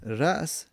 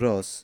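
First: A glottal stop follows the first vowel. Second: A long vowel replaces the glottal stop. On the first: "جایزه بگیم رأس" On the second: "همزه به الف قلب میکنیم"

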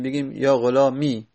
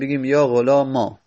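First: The word ends in a plain long i. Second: The word ends in a long a. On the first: "یا و اسکانن و ساکن بکنیم" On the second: "اون یا رو به الف تبدیل بکنیم"

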